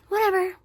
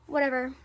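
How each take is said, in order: First: Much higher and louder whatever; exasperated whatever. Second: Said in the usual way. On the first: Real, not acted. Brushing off the story to viewers, loud exasperated whatever. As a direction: toss it off louder, done with it. Repeated dismissal.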